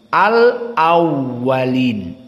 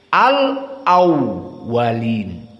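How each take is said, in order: The two takes are said the same way.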